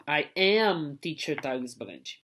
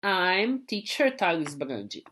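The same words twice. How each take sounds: First: I am with both words separate, am stressed; teacher showing the full form. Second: I'm said as one clipped syllable, slowly; teacher showing the short form; contracted form. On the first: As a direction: say I and am apart. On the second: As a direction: glide straight into I'm without the A. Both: Shown as a demonstration. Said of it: "Então eu fico I'm".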